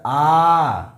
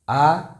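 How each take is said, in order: First: The vowel is held about three times as long. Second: The vowel is held about twice as long. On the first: "ये हमारा हो गया प्लुत" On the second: "दीर्घ हो गया"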